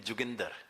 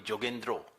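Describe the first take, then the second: First: The name is said with a Punjabi accent. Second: The name is said with a Bengali accent. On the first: "the Punjabi pronunciation of my name" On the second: "Bengalis call me Jogendro"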